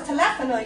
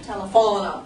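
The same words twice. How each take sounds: First: The stress falls before the second-to-last syllable. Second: The stress falls on the second-to-last syllable. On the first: The speaker calls it right. "no, it's telefono" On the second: The speaker calls it wrong. "if you're starting to understand penultimate syllable, why isn't it telefono?"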